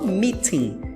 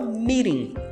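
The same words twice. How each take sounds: First: The t is clearly and fully pronounced. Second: The t sounds like a light tapped r. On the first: "No inglês britânico é que eles pronunciam de fato o T" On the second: "no inglês americano, ele é pronunciado como se fosse um leve R"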